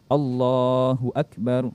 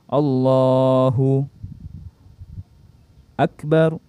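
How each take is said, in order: First: The two words run together without pause. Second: A long pause separates the two words. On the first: The speaker calls it right. "jadi harus bersambung. Allahu Akbar seperti itu" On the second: The speaker calls it wrong. "Lebih-lebih lagi kalau lama"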